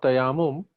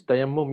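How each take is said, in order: First: "tayammum" with a single m and a long second a; mispronounced tayammum. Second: "tayammum" with the m held double. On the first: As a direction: say "tayammum" wrongly as ta-YAA-mum. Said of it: "it's not tayammum". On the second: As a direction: say "tayammum" correctly as ta-yam-mum, short second vowel. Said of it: "there's a double M there". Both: Shown as a demonstration.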